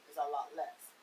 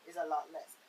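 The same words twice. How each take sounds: The two takes are said the same way.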